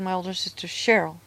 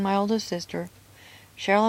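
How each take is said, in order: First: The name Cheryl follows with no pause. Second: There is a pause before the name Cheryl. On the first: Cheryl is the sister who was abused. The speaker calls it right. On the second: Cheryl seems to share the parents' view. The speaker calls it wrong.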